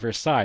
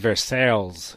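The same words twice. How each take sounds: First: The name is pronounced in a French way. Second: The name is pronounced in an anglicized way. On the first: The speaker calls it right. "it's French" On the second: The speaker calls it wrong. "It's the way I, I pronounced it"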